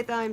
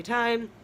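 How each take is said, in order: First: Thyme, th pronounced as spelt. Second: Thyme said with a hard t, like time; thyme, starting on a plain t sound; pronounced like time. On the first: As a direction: say thyme with th as in thigh. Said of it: "Some people say thyme". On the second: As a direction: say thyme with a silent h. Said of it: "some say thyme". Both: Shown as a demonstration.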